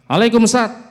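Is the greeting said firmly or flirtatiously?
firmly. It is said plainly, clearly and firmly. Proper distance is kept from the listener. The speaker calls it right. "kudune jelas dan tegas"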